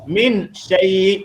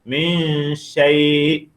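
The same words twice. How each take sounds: First: The n is pronounced clearly and distinctly. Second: The n is hidden in a nasal hum. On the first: The speaker calls it wrong. "kita baca dengan jelas min syai' salah" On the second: The speaker calls it right. "baca dengan dengung. Jadilah dia min syai'"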